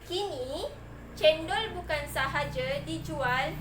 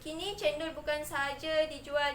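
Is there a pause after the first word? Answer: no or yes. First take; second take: yes; no. First: There is a short pause after the first word. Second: It runs on with no pause after the first word. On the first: The speaker calls it right. "perlu di, dibaca dengan" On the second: The speaker calls it wrong. "Tak adalah awak baca"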